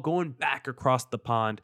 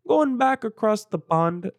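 First: It is said in his normal accent. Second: It is said in a put-on British accent.

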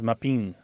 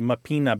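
First: The final vowel is dropped entirely. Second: The final vowel is fully pronounced. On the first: "that final vowel disappears through a process called lenition" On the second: "what might be mappina"

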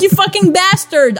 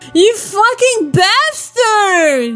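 First: It is said with only a mild moan. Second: It is said with a strong, drawn-out moan.

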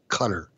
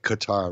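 First: The name is said to sound like cutter. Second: The name is said to rhyme with guitar. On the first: The speaker calls it right. "It's cutter" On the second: The speaker calls it wrong. "Not Qatar, like guitar"

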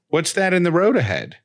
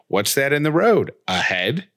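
First: It runs on smoothly with no pause before "ahead". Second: A pause splits it so the end sounds like "a head". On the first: It asks about an object lying ahead on the road. "The driver will calmly, you know, respond" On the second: It asks whether a human head is lying on the road. "then the driver is going"

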